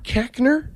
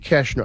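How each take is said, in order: First: The middle consonant is a hard k sound. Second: The middle consonant is a soft sh sound. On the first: The speaker calls it wrong. "It's because it's pronounced incorrectly" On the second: The speaker calls it right. "It should be Keshner"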